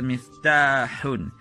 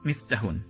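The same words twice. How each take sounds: First: The vowel after the t is held long. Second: The vowel after the t is short. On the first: The speaker calls it right. "there should be haircut here" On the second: The speaker calls it wrong. "not miftahun"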